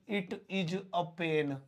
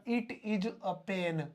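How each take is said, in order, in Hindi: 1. 'It is' दो पूरे शब्दों की तरह बोला जाता है। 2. 'It is' दो पूरे शब्दों की तरह बोला जाता है।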